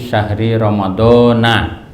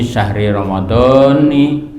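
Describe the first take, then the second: First: The last word ends with the syllable 'na'. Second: The last word ends with the syllable 'ni'. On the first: The speaker calls it wrong. "Jangan pakai na" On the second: The speaker calls it right. "tapi pakai ni"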